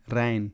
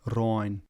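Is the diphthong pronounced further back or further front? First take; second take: front; back. First: The diphthong is pronounced further front. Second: The diphthong is pronounced further back. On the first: "a Waardfriesk speaker would say" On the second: "a Kleifriesk speaker would say ... further back in the mouth"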